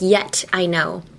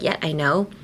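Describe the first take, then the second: First: The T in 'yet' is clearly pronounced. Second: The T in 'yet' is silent. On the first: The speaker calls it wrong. "you wouldn't be like" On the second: The speaker calls it right. "it would probably be silent"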